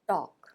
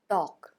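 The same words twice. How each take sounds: Both takes have the same delivery.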